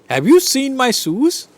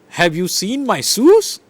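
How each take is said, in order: First: The word 'seen' carries the main stress. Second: The word 'shoes' carries the main stress.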